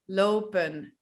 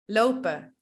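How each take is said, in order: First: The ending is said with a clear final n. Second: The ending drops the n, ending in a vowel. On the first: "However, we don't really pronounce it like that" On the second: "we don't pronounce the N"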